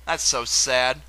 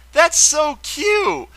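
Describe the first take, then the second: First: Sad. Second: High, slow, drawn-out squeal of delight; gushing. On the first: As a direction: let the "sad" drop gently. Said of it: "That soon turned into sadness". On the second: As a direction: melt over something adorable. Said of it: "I had a little happy moment". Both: Real, not acted.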